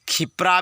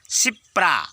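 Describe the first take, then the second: First: The word begins with a kh sound. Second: The word begins with a dental s sound. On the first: The speaker calls it wrong. "इसको खिप्रा भी कहते हैं ... ऐसे उच्चारण मत करो भाई" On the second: The speaker calls it right. "सी दांत में उच्चारण है, दंत सा"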